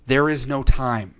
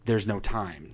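First: "There is no time" slow, with "is" weighted and the whole phrase firm; stress on is. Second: Said in the usual way. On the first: Shown as a demonstration. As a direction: say "There is no time" slowly, leaning on "is". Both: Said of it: "He's saying".

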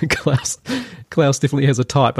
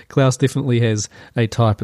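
First: Laughing. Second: Said in the usual way. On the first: Real, not acted. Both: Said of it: "I shouldn't say taste".

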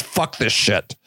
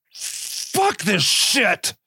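First: Much lower, flat-out blunt; deep deadpan Vader motto; Darth Vader t-shirt line. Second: Very slow, drawn-out weary sigh of a line; slow jaded villain mockery; fed-up Darth Vader. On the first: Retold or imitated. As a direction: drop it low like a slogan. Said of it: "It's just". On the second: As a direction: drag it out like a tired dark lord. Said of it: "He's just like".

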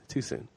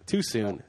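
First: Softer, trailing-off too soon; host conceding the bad joke, softer; quieter muttered repeat. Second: Said in the usual way. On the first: Real, not acted. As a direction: say "Too soon." again under the breath.

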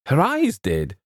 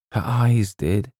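First: Much higher-pitched echo; startled, high-pitched query; incredulous echo. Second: Slow, higher Colonel's statement; drawn-out, meaningful reply; solemn answer. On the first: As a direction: throw the words back in disbelief. James echoes the answer, questioning. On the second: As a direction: give the answer with slow weight. Colonel answers James's question. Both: A narrator's reading.

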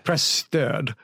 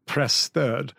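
First: Presstöd said slowly, falling, press-tud; Presstöd spelled out properly, the Swedish way; careful Swedish presstöd. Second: Presstöd said the Swedish way, press-tud; presstöd with a rounded Swedish ö, stress on press. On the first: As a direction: correct him: Presstöd with a clear rounded ö. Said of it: "It sounds like press turd". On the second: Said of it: "which is, like, press support". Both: Shown as a demonstration.

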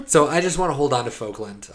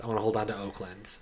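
First: Laughing. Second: Said in the usual way. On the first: Real, not acted. Joking insistence, laughing.

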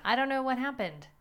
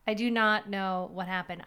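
First: Said in the usual way. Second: 강조해서 not을 또박또박 눌러 말하기; stress on not. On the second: Shown as a demonstration.

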